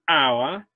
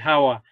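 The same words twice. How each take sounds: First: The word begins with no h sound. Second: The word begins with an audible h sound. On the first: The speaker calls it right. "All those letters H are not pronounced" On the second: The speaker calls it wrong. "Don't say hour"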